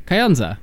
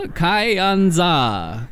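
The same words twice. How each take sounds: First: Kayonza said firmly with a falling tune; confident pronunciation. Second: Kayonza tried out with a doubtful high rise; unsure pronunciation. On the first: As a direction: Kayonza settled and stated plainly, pitch falling. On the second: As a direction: Kayonza sounded out hesitantly, pitch rising at the end. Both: Real, not acted. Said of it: "I can say that".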